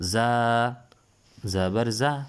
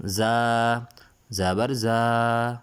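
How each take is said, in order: First: زبر زا with the زا kept short and quick; short vowel. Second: زبر زا with the زا stretched very long and loud; drawn-out vowel. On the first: Teacher reading زا quickly without stretching, short vowel. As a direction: say زا briskly, no stretch. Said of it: "متحرک حرف کو کھینچتے نہیں ہیں". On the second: Teacher showing pupils what stretching a vowel means, زا held long. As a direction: pull the vowel of زا out slowly. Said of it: "یہ کھینچنا ہوتا ہے". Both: Shown as a demonstration.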